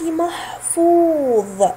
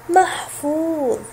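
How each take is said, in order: First: محفوظ said slowly and deliberately; slow teacher demo of محفوظ; slow model word. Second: Slow repeat. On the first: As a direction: stretch محفوظ out for learners. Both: Shown as a demonstration. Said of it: "فحرف الواو الأخير".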